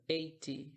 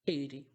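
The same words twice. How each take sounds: First: Eighty with a crisp T sound; eighty, British style with a clear T. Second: Eighty with the T flapped to a quick d sound, American style. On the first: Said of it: "no inglês um pouco mais britânico". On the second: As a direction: say eighty as "eidy". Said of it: "você fala eighty". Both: Shown as a demonstration.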